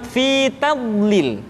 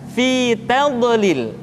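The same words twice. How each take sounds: First: The consonant with sukun flows smoothly, without a bounce. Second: The consonant with sukun is given an echoing bounce. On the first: The speaker calls it right. "yang semestinya tidak mantul" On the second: The speaker calls it wrong. "seringkali dibaca"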